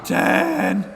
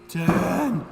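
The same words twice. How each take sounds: First: It is shouted much more loudly. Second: It is said at a moderate loudness.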